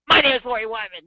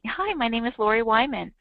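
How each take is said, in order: First: It is said in a mean, hard tone. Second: It is said in a sweet, smiling tone.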